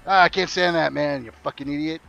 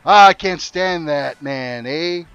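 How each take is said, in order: First: Lightly voiced Canadian griping, insult tossed off; mock translated insult. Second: Slow, louder drawn-out Canadian "Ah ... eh?"; hammed-up Canadian gripe, stretched and loud; mock Canadian complaint. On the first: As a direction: swap the Canadian "eh" for the muttered insult. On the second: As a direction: lean on the Canadian "eh" with a long "Ah". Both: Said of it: "it works just about every situation".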